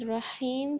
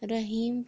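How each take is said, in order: First: The h is harsh and made deep in the throat. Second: The h is light, like a plain breathy h. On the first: The speaker calls it right. "رحیم کے بجائے" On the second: The speaker calls it wrong. "رحیم پڑھتے ہیں"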